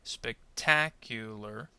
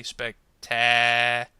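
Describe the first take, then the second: First: Spectacular slowly, with TA as the strong syllable; stress on TA. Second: Spectacular with a hugely long, loud, droning taaa; crazily stretched TA. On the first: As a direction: lean on the ta in spectacular, lower voice. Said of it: "if you said ta". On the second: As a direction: overdo the ta in spectacular, holding it absurdly long. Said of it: "without sounding kind of crazy". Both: Shown as a demonstration.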